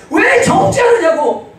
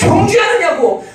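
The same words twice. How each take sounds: First: 왜 hit hard, 왜 정죄하느냐고 shouted slowly; stress on 왜. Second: Shouted complaint. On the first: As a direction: punch 왜 in 왜 정죄하느냐고. Repeat with stress on 왜. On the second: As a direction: shout 정죄하느냐고 out slowly. Mocking critics' complaint, shouted. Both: Acted.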